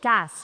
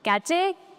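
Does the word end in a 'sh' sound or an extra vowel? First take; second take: sh sound; extra vowel. First: It ends with a 'sh' sound. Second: It ends with a 'ch' and a vowel. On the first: The speaker calls it right. "It's कैश" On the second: The speaker calls it wrong. "कैचे नहीं"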